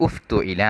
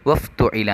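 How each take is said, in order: First: "ഉഫ്തുഇല" starting with a clear u vowel on the hamza; separate reading. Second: "വഫ് തുഇല" read joined to the preceding വ, no opening hamza vowel. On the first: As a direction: begin "ഉഫ്തുഇല" with a pronounced u, read on its own. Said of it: "ഉ എന്നാണ് നമ്മളതിനെ ഉച്ചരിക്കേണ്ടത്". ("ഉഫ്തുഇല" ഉ ചേർത്ത് വേറിട്ട് വായിക്കുക) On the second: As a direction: run "വഫ് തുഇല" together as one flow, the hamza dropped. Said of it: "വാവ് ചേർത്തി വായിക്കുമ്പോൾ നമ്മളെങ്ങനെ വായിക്കും". ("വഫ് തുഇല" ചേർത്ത് വായിക്കുക) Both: Shown as a demonstration.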